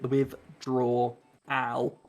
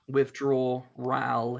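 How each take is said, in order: First: No extra R sound is added in the word. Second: An extra R sound is added in the word. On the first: "instead of" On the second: "you're putting an R after the W"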